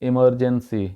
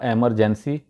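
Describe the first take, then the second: First: The first vowel sounds like 'ih'. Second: The first vowel sounds like 'eh'. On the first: The speaker calls it right. "ये है इसका सही तलफ़ुज़" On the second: The speaker calls it wrong. "गलत गलत तरीके से बोला जाता है"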